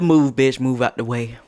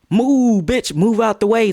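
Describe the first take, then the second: First: Said in the usual way. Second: High, loud mock shove-off; aggressive command. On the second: Asking if the shove was meant hard, aggressive command. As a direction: act out an angry order, pitched up, drawing out the first word. Acts out harder shove versus little push.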